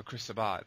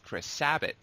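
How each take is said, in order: First: "Chris Sabat" said as "uh-BOT", stress moved to the last syllable with a clear t; "Chris Sabat" with the t sounded and stress on the end; second try at the name. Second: "Chris Sabat" said as "Sabb-uh", stress on the first syllable, last t dropped; "Chris Sabat" pronounced SAB-uh with a trailing vowel; first try at the name. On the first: Unsure fan correcting his pronunciation of the actor's name. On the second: Unsure fan trying the voice actor's name, first guess. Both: Shown as a demonstration. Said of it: "I don't know how to pronounce his last name".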